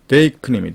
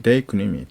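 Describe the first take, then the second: First: 데이크님이 said loud and firm, syllable by syllable; 데이크님이 projected like a vocabulary drill; loud model pronunciation. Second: Said in the usual way. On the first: Shown as a demonstration. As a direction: announce 데이크님이 clearly for students to copy. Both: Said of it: "데이크 미동사입니다".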